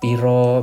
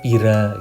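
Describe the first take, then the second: First: The word ends with an 'o' vowel. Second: The word ends with an 'a' vowel. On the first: This is how Jogja and East Javanese speakers say it. "bahasa Jawa yang O O semua tuh kalau di Jogja sama Jawa Timuran" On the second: This is how Ngapak Javanese speakers say it. "Kalau di Jawa Ngapak itu kan pira"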